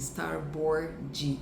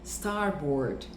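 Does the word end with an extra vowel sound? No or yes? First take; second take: yes; no. First: The final D is followed by an added 'ee' vowel. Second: The word ends cleanly on the D sound. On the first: The speaker calls it wrong. "Eu vejo muitos brasileiros falando assim" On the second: The speaker calls it right. "Esse D não tem o I ao final"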